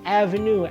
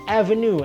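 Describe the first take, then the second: Both takes have the same delivery.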